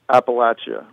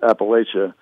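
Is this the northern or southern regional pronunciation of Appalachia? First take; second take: southern; northern. First: It uses the southern regional pronunciation. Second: It uses the northern regional pronunciation. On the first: "below the Mason-Dixon line, it's Appalachia, largely. People pronounce it that way" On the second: "above the Mason-Dixon line, it's Appalachia"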